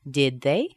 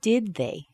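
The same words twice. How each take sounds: First: The voice rises at the end. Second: The voice falls at the end. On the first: "So here's the rising intonation with did" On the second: "And now with falling intonation"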